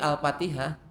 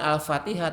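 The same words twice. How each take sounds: First: The word begins with a P sound. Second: The word begins with an F sound. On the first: The speaker calls it wrong. "tapi Al-Fatihah" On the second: The speaker calls it right. "Bukan Al-Fatihah"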